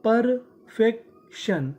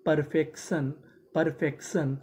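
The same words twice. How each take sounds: First: Slow, syllable by syllable परफेक्शन; drawn-out model word. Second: Said in the usual way. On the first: Shown as a demonstration. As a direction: stretch out परफेक्शन slowly for the class. (धीरे धीरे खींचकर परफेक्शन) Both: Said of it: "तो meaning क्या बनी?".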